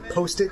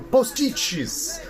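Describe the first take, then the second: First: It is pronounced the English way. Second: It is pronounced the Brazilian Portuguese way. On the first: "or rather my post-it notes" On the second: "or as we say in Brazil, postiches. Same spelling, different pronunciation"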